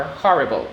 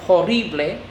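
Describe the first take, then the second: First: Said in the usual way. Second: "horrible" in Spanish, oh-RREE-bleh; Spanish pronunciation. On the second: Shown as a demonstration. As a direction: say "horrible" as Spanish, stressing the middle "rri". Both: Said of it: "often identical in Spanish and English".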